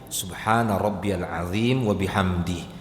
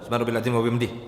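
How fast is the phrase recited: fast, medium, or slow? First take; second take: medium; fast. First: The phrase is recited at a moderate pace. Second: The phrase is recited very quickly and rushed. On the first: The minimum calm is reached. The speaker calls it right. "Tadwir, tengah dia" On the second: The bowing is not calm enough. The speaker calls it wrong. "bukan pula hadr"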